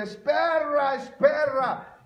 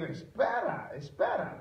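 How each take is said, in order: First: High, mangled gringo "es perra"; broken-Spanish gringo call, pitched up; gringo accent in Spanish. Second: Said in the usual way. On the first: Shown as a demonstration. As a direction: say "espera" as "es perra" with an American accent. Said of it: "uno no habla bien el español". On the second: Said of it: "lo que le quería decir".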